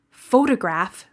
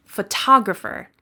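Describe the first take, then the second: First: "Photograph" stressed on PHO; "Photograph" with full O up front; first-syllable stress. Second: "photographer" stressed on TOG; "photographer" with reduced first vowel, strong TOG; second-syllable stress. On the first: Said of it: "The first syllable is stressed". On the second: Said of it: "The second syllable is stressed". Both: Shown as a demonstration.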